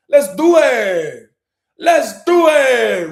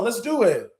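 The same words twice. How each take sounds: First: Slow, loud, drawn-out rallying cry; hype call. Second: Said in the usual way. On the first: Real, not acted. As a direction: stretch it out to pump up the crowd. Hyping up the live audience.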